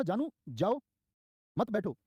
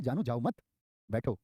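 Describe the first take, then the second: First: "जानू जाओ", clear pause, then higher "मत बैठो"; pause after जाओ. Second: "जानू जाओ मत" run together, pause, then बैठो; pause after मत. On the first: Teacher shows class what the speaker meant, pausing after जाओ before "मत बैठो". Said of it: "उसने तो बोला था". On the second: Teacher shows class how the listener misheard it, pausing after मत before बैठो. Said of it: "अपने तरीके से". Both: Shown as a demonstration.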